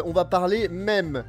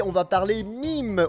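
First: Mème said the French way, with an open e; mème said French style. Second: Mime said as English "mime" with an ai vowel; mime said English style. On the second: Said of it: "on va parler mime, on va parler mème". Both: Shown as a demonstration.

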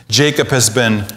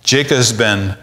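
The two takes are said the same way.

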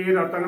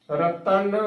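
First: ਰਤਨ as a light 'ra-tan'; ਰਤਨ with no held nasal in 'tan'; all letters mukta. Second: ਰਤਨ drawn out as 'ra-tann'; ਰਤਨ with a weighted nasal 'tann'; full tippi. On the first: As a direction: say ਰਤਨ with a short single n. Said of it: "ਨਾ ਕਿ ਰਤਨ ਬੋਲਣਾ ਹੈ". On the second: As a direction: hold a full doubled n in ਰਤਨ. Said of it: "ਰਤਨ ਬੋਲਣਾ ਹੈ". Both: Shown as a demonstration.

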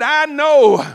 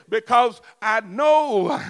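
First: Loud insistence. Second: Slow shout. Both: Shown as a demonstration. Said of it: "I said".

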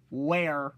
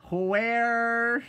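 First: Said in the usual way. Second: High, loud and drawn out; loud shocked where. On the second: Shown as a demonstration. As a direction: wail it like a shocked question. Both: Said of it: "I'm gonna say".

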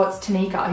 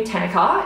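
First: "Tanika" as tuh-NEE-ka; correct pronunciation. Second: "Tanika" as TAN-i-ka, first syllable stressed; short TAN at the front of "Tanika"; mispronounced name. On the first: She corrects the man who asked, correctly pronounced. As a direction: lean on the middle NEE of "Tanika". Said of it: "I was like". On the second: Retelling what a customer called her, mispronounced. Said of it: "he called me Tanika". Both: Retold or imitated.

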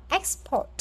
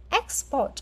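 No difference in how they are said.

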